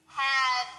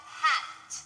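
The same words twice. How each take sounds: First: Had with a voiced final d. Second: Hat ending in breath only; hat voiceless t. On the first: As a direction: add voice to the d of Had. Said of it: "change the T to a D". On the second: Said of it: "That's voiceless at the end". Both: Shown as a demonstration.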